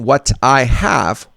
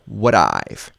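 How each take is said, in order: First: Full words with a clear T sound. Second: The T becomes a fast D, contracted. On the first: "instead of saying what I have" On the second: "we're going to say would I've"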